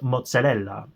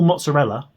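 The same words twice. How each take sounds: First: It is said with an Italian-style pronunciation. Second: It is said with an English-style pronunciation. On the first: Italian listeners understand the word more easily. The speaker calls it right. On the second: Italian listeners may not recognize the word. The speaker calls it wrong.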